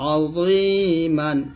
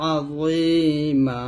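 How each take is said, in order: First: The word ends with a final n sound. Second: The word ends with a lengthened a vowel. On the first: The reading continues past this word. "মিম দুই জবর মান" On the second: The reading stops at this word. "থামলে হবে আযীমা"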